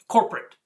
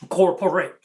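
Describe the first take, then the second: First: Said in the usual way. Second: "Corporate" broken up as core, poor, ate; split into core-poor-ate. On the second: Shown as a demonstration. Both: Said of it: "The poor ate the core of us".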